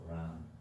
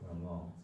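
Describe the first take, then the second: First: The word ends with no final vowel. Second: The word ends with an o vowel. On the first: "or Ram" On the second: "It's not Ramo"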